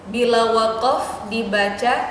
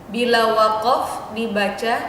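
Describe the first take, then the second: The two takes are said the same way.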